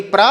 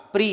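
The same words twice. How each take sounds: First: "प्र" as pra, open a vowel; pra, contrasted. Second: "प्री" as pri, with an i vowel; pri, contrasted. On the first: Teacher contrasting two syllables for pupils, "प्र" as pra. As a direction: say a short clear "प्र", pra. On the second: Teacher contrasting two syllables for pupils, "प्री" as pri. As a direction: say a short clear "प्री", pri. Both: Shown as a demonstration. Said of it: "दोनों के में अंतर देखिए".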